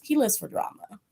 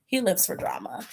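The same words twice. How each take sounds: First: Said in the usual way. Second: Whispered. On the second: Real, not acted. Vlogger gossiping to viewers, whispered. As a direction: repeat it in a whisper.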